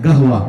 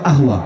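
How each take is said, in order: First: The word begins with a hard g sound. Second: The word begins with a glottal stop. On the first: The speaker is from Saudi Arabia. "সৌদিরা তারা কফকে গ উচ্চারণ করে" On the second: The speaker is from Egypt. "মিশরীরা বলে ... কফটা হয়ে যায় হামজা"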